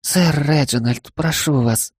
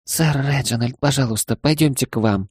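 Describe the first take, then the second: First: Pleading maid voice. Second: Pleading. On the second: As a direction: beg him gently, a touch higher. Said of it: "взмолилась она". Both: Acted.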